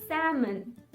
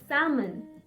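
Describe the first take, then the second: The two takes are said the same way.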